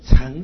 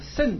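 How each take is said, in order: First: The word starts with 'ch' and a rising tone. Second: The word starts with 'sh' and a falling tone. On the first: It is a verb meaning to ride or board. "读作乘的话呢，是一个动词啊" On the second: It is a noun meaning a vehicle. "这个字念成这个圣的话呢，就代表名词了啊"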